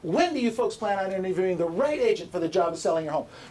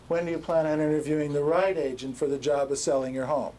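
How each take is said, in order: First: It is said with high, lively energy. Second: It is said with low, flat energy.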